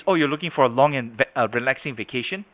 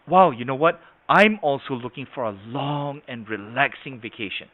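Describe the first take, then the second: First: Said in the usual way. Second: Mirror the customer, savouring "long" and "relaxing"; matched inflection. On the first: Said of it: "there's a mismatch". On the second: Shown as a demonstration. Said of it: "then you're more in sync".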